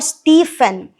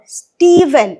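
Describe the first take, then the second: First: The middle consonant is an f sound. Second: The middle consonant is a v sound. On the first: The speaker calls it wrong. "we are not going to pronounce it as f" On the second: The speaker calls it right. "We are going to pronounce it as v"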